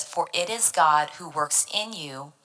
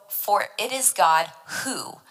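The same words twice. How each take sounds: First: Said in the usual way. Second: Slow down and land on "who"; "who" drawn out and set apart at the end; stress on who. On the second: Shown as a demonstration. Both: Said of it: "let's emphasize the word who".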